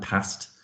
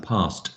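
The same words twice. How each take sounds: First: "past" with a short a, as in "pat"; short-a pronunciation. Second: "past" with a long "ah", as "pahst"; long-a pronunciation. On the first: Teacher comparing regional accents, short a in "past". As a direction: say "past" softly with the short Northern vowel. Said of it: "it will be either an ah sound". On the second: Teacher comparing regional accents, long "ah" in "past". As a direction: say "past" with an open "ar" vowel. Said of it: "an R sound". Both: Shown as a demonstration.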